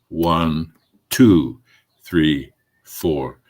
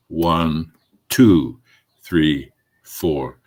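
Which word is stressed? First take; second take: two; two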